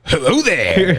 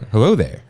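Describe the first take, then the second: First: It is said with wild, exaggerated energy. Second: It is said plainly, with little energy.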